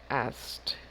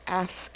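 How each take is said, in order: First: The ending is pronounced as a T. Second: The ending is not pronounced as a T. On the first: The speaker calls it right. "the ed sounds like a T" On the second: The speaker calls it wrong. "they did not say asked. It's a common mistake"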